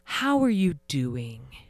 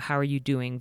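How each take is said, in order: First: It sounds heavy and full of pity. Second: It sounds light and genuinely interested.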